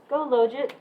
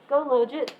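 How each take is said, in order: No difference in how they are said.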